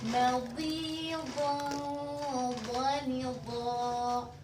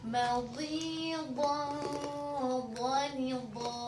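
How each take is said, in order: The two takes are said the same way.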